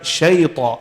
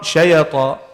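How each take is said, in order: First: The y joins straight into the t. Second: An extra vowel separates the y and t. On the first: The speaker calls it right. "Straight to join it" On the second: The speaker calls it wrong. "And not shayata. That's wrong"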